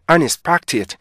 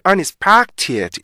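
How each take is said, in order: First: The word is said briskly with its natural rhythm. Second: The word is stretched out, overly long and slow. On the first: The speaker calls it right. "주어진 리듬감만 정확하게 하셔야 돼요" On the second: The speaker calls it wrong. "unexpected 이렇게 읽는 게 아니고요"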